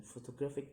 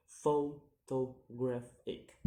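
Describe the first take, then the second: First: Said in the usual way. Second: "photographic" slowly and loudly split into syllables; slow, separated syllables on "photographic". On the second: Shown as a demonstration. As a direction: sound out "photographic" piece by piece. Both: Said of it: "count the word syllable backwards".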